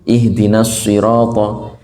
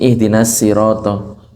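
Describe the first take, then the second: First: The s sound is heavy and deep. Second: The s sound is light and thin. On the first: The speaker calls it right. "huruf shad" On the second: The speaker calls it wrong. "Jangan kayak huruf sin"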